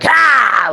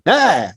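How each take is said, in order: First: The voice is harsh and grating on the throat. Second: The voice is relaxed and easy on the throat.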